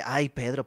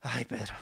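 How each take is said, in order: First: "Ay, Pedro" as a firm scolding; the rebuke Jesus did not give, "Ay, Pedro" said sharply; reproachful. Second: "Ay, Pedro" softer and tender; what Jesus seems to say, a soft, loving "Ay, Pedro"; gentle. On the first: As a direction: tut at him with "Ay, Pedro". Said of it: "bueno, no le dice". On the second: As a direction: sigh "Ay, Pedro" kindly, soft. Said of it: "pero parecería que le dijera". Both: Retold or imitated.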